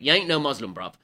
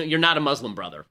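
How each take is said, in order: First: Lightly attempted Cockney; a hint of Cockney on the slangy line; Cockney accent. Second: Said in the usual way. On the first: Shown as a demonstration. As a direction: imitate a Cockney heckler in passing. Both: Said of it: "have to do it in a Cockney accent".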